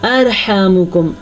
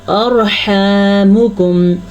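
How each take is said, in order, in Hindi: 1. र की आवाज़ बारीक और पतली है। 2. र की आवाज़ पुर और भरी हुई है। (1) "अगर हम बारीक पढ़ेंगे तो कैसे गलती होगी?" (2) "रॉ को पुर पढ़ेंगे"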